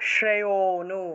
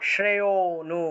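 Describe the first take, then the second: Both takes have the same delivery.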